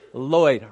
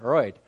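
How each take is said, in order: First: The name begins with a clear L sound. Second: The name begins with an R-like sound. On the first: The speaker calls it right. "they could never say my name, Lloyd" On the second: The speaker calls it wrong. "I'm saying Royd, right? No, you're wrong"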